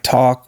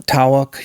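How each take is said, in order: First: Said in the usual way. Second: "tawak" in two syllables, with a w glide; Southern diphthong. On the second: Shown as a demonstration. Showing how talk would be in the South, diphthongized "tawak". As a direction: break "tawak" into TAH-wuk. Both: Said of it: "like talk would be".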